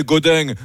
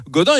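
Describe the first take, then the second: First: Gaudin said "Godaing", with a ringing southern nasal ending; mock southern French accent. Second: Said in the usual way. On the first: Mocking a mayor passed over for his accent, southern French accent. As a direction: put on a singsong southern French twang on "Gaudin". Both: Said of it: "un accent super chantant".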